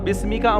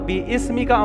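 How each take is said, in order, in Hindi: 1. शब्द बिना किसी अतिरिक्त स्वर के आपस में जुड़ जाते हैं। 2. 'bi' के बाद एक अतिरिक्त 'i' स्वर बोला जाता है।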